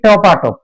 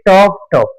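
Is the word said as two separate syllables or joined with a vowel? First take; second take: joined; separate. First: Said quickly, joined by an added 'a' vowel. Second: Two separate syllables with no added vowel. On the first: "দ্রুত উচ্চারণ করতে গিয়ে বলতেছি" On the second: "এই শব্দটা আমি দুইবার উচ্চারণ করতেছি"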